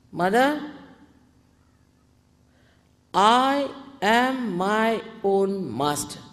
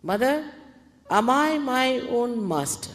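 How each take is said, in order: First: Slow, loud, drawn-out affirmation; full confidence. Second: Louder, questioning plea to Mother; asking earnestly. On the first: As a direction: declare it firmly, stretching each word. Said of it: "say with full confidence". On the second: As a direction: put AM I first as a sincere question. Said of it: "you ask me another question". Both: Shown as a demonstration.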